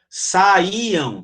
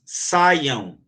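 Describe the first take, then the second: First: The word is said in three separate syllables. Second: The word is said in two syllables, vowels joined. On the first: "três"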